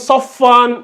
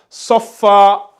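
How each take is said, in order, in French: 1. Le mot finit par un son n. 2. Le mot finit par une voyelle longue a. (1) "On va pas lire" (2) "vu qu'on va faire une pause ici, on va lire ça"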